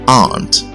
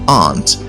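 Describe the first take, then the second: No difference in how they are said.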